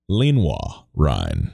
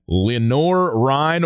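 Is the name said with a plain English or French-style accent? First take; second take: French-style; plain English. First: The name is said with a French-style accent. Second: The name is said in a plain English way.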